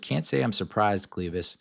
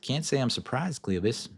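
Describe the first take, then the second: First: It is spoken in the speaker's normal accent. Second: It is spoken with a Southern American accent.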